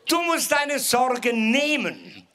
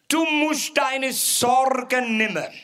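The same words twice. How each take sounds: First: It is spoken in standard German. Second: It is spoken in a broad Swabian dialect.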